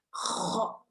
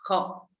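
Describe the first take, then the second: First: The throat sound is rough and very harsh. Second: The throat sound is mild and not harsh. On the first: The speaker calls it wrong. "bukan yang kasar banget, bukan yang kho" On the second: The speaker calls it right. "Kho biasa"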